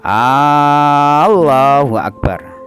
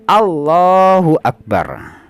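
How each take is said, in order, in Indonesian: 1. Huruf vokal pertama pada Allah dibaca panjang. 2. Huruf vokal pertama pada Allah dibaca pendek. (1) "gak boleh yang seperti ini" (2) "harus pendek"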